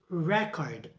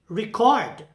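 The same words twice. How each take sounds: First: The stress is on the first syllable. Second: The stress is on the second syllable. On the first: It is used as a noun. "for noun" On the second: It is used as a verb. "For the verb"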